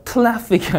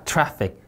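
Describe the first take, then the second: First: "traffic" mispronounced as "tlaffic". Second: "traffic" with an English r after t; "traffic", tongue gliding from t into r; R sound. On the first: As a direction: put an l after the t in "traffic". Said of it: "traffic이 아니라 traffic". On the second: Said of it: "받침 없는 리을입니다". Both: Shown as a demonstration.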